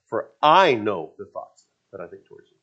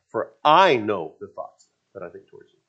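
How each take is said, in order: First: The word 'I' is emphasized each time. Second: The same.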